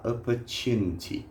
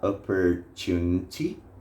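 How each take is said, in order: First: No R sound is heard in the middle. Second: An R sound is heard in the middle. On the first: "sem esse som de R" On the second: "Algumas pessoas podem falar opportunity"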